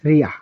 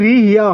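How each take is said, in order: First: The syllables merge into a single syllable. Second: Two separate syllables, ri then ya. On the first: The speaker calls it right. "এই বর্ণের উচ্চারণ হবে রিয়া" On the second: The speaker calls it wrong. "রি ইয়া হওয়ার কথা ছিল"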